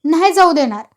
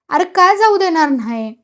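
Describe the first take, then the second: First: Short, louder refusal with mild anger; irritated. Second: Higher, louder pleading question; mildly tearful. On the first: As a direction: refuse with a touch of temper. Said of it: "नानाही चिडून म्हणाला". (थोडं चिडून) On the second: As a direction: protest as if close to tears, understated. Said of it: "भाऊ रडकुंडीला येऊन म्हणाला". (किंचित रडकुंडीला येऊन) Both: A narrator's reading.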